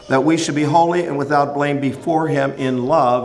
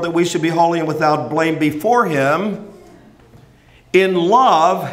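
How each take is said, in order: First: It runs on with no pause after 'him'. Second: There is a pause after 'him' before 'in love'.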